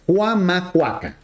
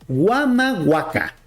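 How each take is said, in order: First: The word begins with a harsh throaty h sound. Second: The word begins with a soft w sound.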